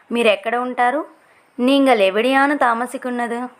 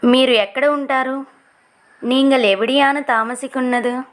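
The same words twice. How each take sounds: The two takes are said the same way.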